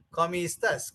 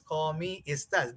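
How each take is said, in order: First: Said in the usual way. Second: "¿Cómo estás?" with each syllable set slightly apart; clear, syllabled. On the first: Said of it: "When I made it very clear". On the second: Shown as a demonstration. Teacher making a greeting clear for learners, "¿Cómo estás?" carefully syllabled. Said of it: "very clear in the similar fashion".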